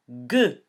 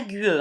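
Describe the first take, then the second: First: « gue » dit avec G dur, U muet; lecture correcte, U muet. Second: « gue » lu « gu-e », en sonnant le U; lecture fautive, U prononcé. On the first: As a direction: appuie un « gue » net, sans son « u ». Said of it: "chante gue". (« gue » prononcé comme au début de gomme) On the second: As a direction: fais entendre fort le « u » de « gue ». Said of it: "Pas gue". (« gue » prononcé à tort « güe », U audible) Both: Shown as a demonstration.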